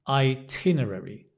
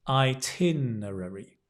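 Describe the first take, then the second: No difference in how they are said.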